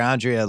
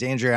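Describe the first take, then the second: First: "Andrea" with a broad "AHN" at the start; open 'ah' pronunciation. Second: "Andrea" with the first vowel of "and"; short 'a' pronunciation. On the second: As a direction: say "Andrea" as AN-dree-uh. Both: Shown as a demonstration. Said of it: "everyone called her Andrea".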